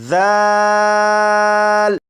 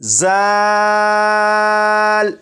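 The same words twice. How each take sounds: First: The consonant is soft with no whistling hiss. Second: The consonant has a sharp whistling hiss. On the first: The speaker calls it right. "नरमी से पढ़ेंगे, यानी सीटी की आवाज के बगैर" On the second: The speaker calls it wrong. "सीटी की आवाज के साथ"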